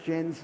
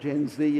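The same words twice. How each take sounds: First: The letter Z is said the British way. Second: The letter Z is said the American way.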